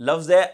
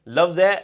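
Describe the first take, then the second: Both takes have the same delivery.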